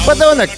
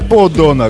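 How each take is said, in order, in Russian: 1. Первая гласная — звук А. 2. Первая гласная — чистый звук О. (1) "а произносится «подонок»" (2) "не «подонок»"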